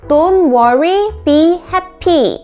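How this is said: Said with flat, Korean-style pronunciation. "우리말처럼 발음을 하면"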